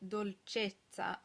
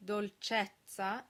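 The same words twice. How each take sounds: First: Dolcezza with a closed "ay"-like E before the double z, drawn out slowly. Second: Dolcezza with an open "eh" before the double z; English speakers' mistake. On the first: Teacher modelling correct singers' Italian, dolcezza with closed E. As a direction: say dolcezza slowly, closing the stressed E. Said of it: "pronouncing O's and E's open when they should be closed". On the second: Teacher showing singers a common Italian mistake, dolcezza with open eh. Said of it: "English speakers will tend to say". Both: Shown as a demonstration.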